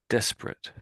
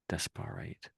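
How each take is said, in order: First: It is said quickly with a reduced middle. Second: Every syllable is said slowly and fully. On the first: This is how it is actually said. "It's said slightly quicker" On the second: It helps to remember the spelling. "people say desperate when they want to remember how to ... spell it"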